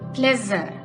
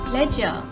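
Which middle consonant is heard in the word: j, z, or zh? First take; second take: z; j. First: The middle consonant sounds like a z. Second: The middle consonant sounds like a j. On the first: "or a z sound" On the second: "it will tend to give a j sound"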